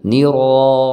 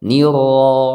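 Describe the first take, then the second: First: The r has only two or three light vibrations. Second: The r has only two or three light vibrations.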